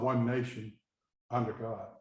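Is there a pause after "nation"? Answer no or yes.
yes. There is a pause after the word nation.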